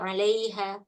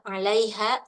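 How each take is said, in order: First: The vowels are pronounced unclearly, drifting toward e. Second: The vowels are pronounced clearly and precisely.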